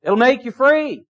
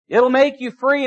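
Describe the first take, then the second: First: Preacher answering his own prompt; call and answer. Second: Preacher repeating for the congregation; echoed answer, stress on make. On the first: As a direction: make you FREE, answered firm. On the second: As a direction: MAKE lifted with a rise. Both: Shown as a demonstration.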